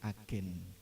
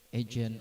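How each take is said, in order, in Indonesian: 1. Diucapkan dengan bunyi Indonesia. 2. Diucapkan dengan bunyi Inggris. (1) "sudah serapan bahasa Indonesia berarti agen" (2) "agent of change"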